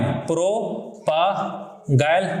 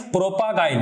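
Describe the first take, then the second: First: Very slow, split-up "प्रोपागाइल"; syllable by syllable. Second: Said in the usual way. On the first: Shown as a demonstration. Teacher stressing an important term, syllable by syllable. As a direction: stretch "प्रोपागाइल" into separate syllables with gaps.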